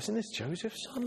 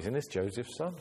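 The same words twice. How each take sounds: First: It sounds amazed and impressed. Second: It sounds dismissive and scornful.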